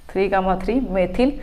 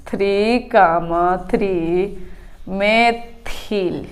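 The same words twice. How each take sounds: First: Said in the usual way. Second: Each word drawn out slowly for notes; slow, deliberate dictating pace; slow dictation. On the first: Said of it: "दो बार लिखेंगे three comma three". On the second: Shown as a demonstration. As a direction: spell it out slowly so students can write. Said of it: "तो हम लिखेंगे".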